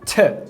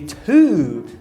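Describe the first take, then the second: First: The vowel is reduced to a weak schwa. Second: The word has a full long u vowel. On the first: "o u longo na palavra to... ser reduzido para o chuazinho" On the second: "em vez de to"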